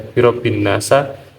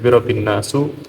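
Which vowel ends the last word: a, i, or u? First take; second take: a; u. First: The last word ends with an 'a' vowel. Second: The last word ends with a 'u' vowel. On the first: "tidak bisa dibaca birobin nasa" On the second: "tidak bisa dibaca birobin nasu"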